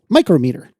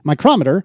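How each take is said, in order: First: The stress is on the first syllable. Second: The stress is on the second syllable. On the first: It names the unit of length. "the unit name places the stress on the first syllable" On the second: It names the measuring device. "the name of the measuring device is stressed on the second sy- syllable"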